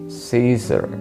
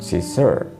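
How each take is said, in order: First: The stress is on the first syllable. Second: The stress is on the second syllable. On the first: The speaker calls it right. "the stress is usually on the first syllable" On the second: The speaker calls it wrong.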